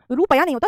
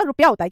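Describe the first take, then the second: First: Long oo and full "pa" in रुपया; wrong pronunciation. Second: रुपया short, as "rup-ya"; correct pronunciation. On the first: (गलत उच्चारण, रुपया को रूपया बोलें) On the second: (सही उच्चारण, रुपया में छोटा रु) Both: Shown as a demonstration.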